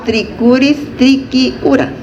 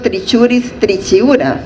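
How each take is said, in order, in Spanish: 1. La ch se pronuncia como un sonido k. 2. La ch se pronuncia como un sonido ch. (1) "la C H se pronuncia Q. Por eso yo digo" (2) "no digo"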